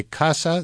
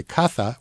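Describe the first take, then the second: First: Casa with a plain s, "KAH-sa"; s sound. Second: Caza with th for the z, "KAH-tha"; Castilian th. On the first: Guest explaining the word for house, s sound in casa. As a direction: say casa with a hissed s in the middle. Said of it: "pronounced with as, as T H". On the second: Guest explaining the word for big game, th in caza. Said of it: "caza with a Z". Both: Shown as a demonstration.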